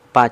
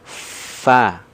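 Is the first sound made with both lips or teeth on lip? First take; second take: both lips; teeth on lip. First: The first sound is made by pressing both lips. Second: The first sound is made with teeth on lip. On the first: The speaker calls it wrong. "vokal P itu ya yang terlibat dia bibir bawah dan bibir atas" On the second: The speaker calls it right. "gigi seri atas yang kita sentuhkan ke perut bibir bawah bagian dalam"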